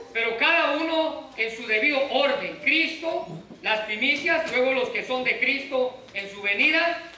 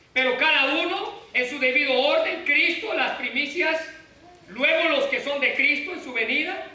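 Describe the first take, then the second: No difference in how they are said.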